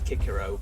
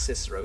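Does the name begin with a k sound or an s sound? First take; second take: k sound; s sound. First: The name begins with a hard k sound. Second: The name begins with a soft s sound. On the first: The speaker calls it right. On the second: The speaker calls it wrong.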